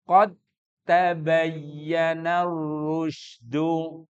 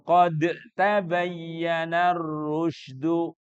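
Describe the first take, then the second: First: The d merges into the t without a bounce. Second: The d is released separately with a bounce. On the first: The speaker calls it right. "dalnya masuk menjadi tak. Makanya hilang kolkolahnya" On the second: The speaker calls it wrong.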